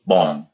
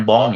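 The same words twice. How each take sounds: First: Bong said as French bon, a nasal vowel and no closing ng, slowly; the right French bong, drawn out; bong as a Parisian would say it; correct French bon. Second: Bong said with a hard closed ng like an English word; the bong to avoid; bong ending in a plain English ng; wrong pronunciation. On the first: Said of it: "tapi bong". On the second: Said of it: "Bukan bong". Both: Shown as a demonstration.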